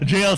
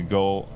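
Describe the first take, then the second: First: It starts with a j sound, like jail. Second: It starts with a hard g, like goal. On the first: The speaker calls it right. "I know it's pronounced as jail" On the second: The speaker calls it wrong. "I can't help but pronounce it like goal"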